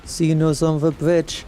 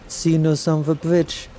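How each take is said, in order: Both takes have the same delivery.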